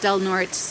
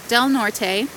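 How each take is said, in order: First: Norte is said with a local Anglicized ending. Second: Norte is said with a Spanish-style ending. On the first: This is how people who live there say it. The speaker calls it right. "you know it's pronounced Del Norte, and just know that that's a local pronunciation" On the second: This is how an outsider would expect it to sound. The speaker calls it wrong. "it looks like it should be pronounced Del Norte"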